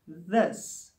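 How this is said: The word starts with a soft th sound. The speaker calls it right. "For instance, this, this"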